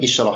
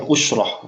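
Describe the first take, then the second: First: The first vowel is an 'i' sound. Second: The first vowel is a 'u' sound. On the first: The speaker calls it wrong. "ini bukan isyrah" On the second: The speaker calls it right. "usyrah, ya, usyrah"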